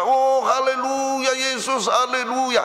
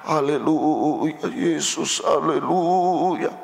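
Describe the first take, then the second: First: It is said with bright joy. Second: It is said with a pained groan.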